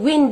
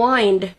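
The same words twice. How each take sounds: First: The vowel is a short 'ih' sound. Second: The vowel is a long 'eye' sound.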